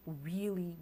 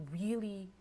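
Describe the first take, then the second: No difference in how they are said.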